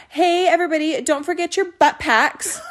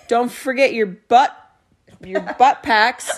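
First: Put-on bright Valley Girl announcement, slowed. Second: Slow, lightly voiced old grandpa. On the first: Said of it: "I said it like a Valley Girl the first time". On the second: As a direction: drag it out like an old man. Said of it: "he is an old grandpa".

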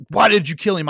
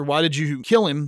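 First: A mock angry demand, a little higher and louder; angry outburst. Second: Said in the usual way. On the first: Charlie Sheen's cop yelling at his girlfriend, mock angry. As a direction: snap it at her like a furious cop. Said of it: "gets very angry at her and says". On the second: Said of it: "Clint Eastwood's character said".

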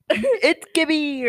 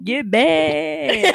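First: Gibby catchphrase. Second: Higher drawn-out Gibby call; Gibby catchphrase. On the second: Friend quoting Gibby's catchphrase, high and drawn out. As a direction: sing out the name like the show. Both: Retold or imitated. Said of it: "what does he say?".

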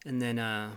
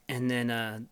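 The two takes are said the same way.

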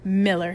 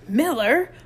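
First: "Miller" muttered, falling at the end. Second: MILLER yelled high and loud; "Miller" shouted with a rising end; howled. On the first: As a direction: grumble "Miller" under your breath. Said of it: "he muttered as he headed". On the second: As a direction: howl "Miller" as you charge up. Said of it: "He charged up, howling". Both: A narrator's reading.

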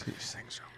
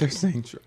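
First: "Sure." whispered with no voice. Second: Said in the usual way. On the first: Retold or imitated. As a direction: whisper "Sure." as a secret aside. Mother repeats it hushed.

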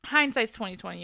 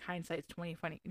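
First: "hindsight's twenty twenty" said cleanly, both "twenty" clear; a firm retry with both "twenty" fully voiced; corrected phrase. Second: "twenty twenty" comes out as "twenty funny", a quiet stumble; mumbled "hindsight's twenty funny" with the second "twenty" slurred into "funny"; slip of the tongue. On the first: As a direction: fix the slip and say "twenty twenty" properly. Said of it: "I can't fucking talk today". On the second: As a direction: trip over the second "twenty" so it sounds like "funny". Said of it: "Twenty funny?". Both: Real, not acted.

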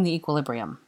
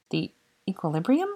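First: Said in the usual way. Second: "equilibrium" rising as a question; puzzled echo. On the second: A narrator's reading. Granger repeats Draco's word back to him, puzzled echo. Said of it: "repeated Granger".

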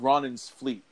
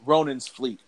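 First: Said in the usual way. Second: "Ronan's" with a long O, like "ROH-nans"; corrected pronunciation. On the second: Real, not acted. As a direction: fix the name to "Ronan's", first vowel as in "row". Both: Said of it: "Ron-, Ronan's".

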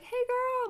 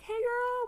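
First: Put-on high squealed "Hey, girl"; mock girlfriend squeal, pitched way up; girly greeting. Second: Put-on high squealed "Hey, girl" in reply; girly greeting back. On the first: Friend greeting her at girls' night, squealing high. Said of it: "Vanessa's like". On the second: Greeting her friend back, squealing high. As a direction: echo the squeal right back, pitched way up. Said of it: "I'm like".

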